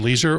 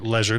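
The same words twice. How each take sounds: First: It is said with an ordinary, everyday pronunciation. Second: It is said with a fancier, more refined pronunciation.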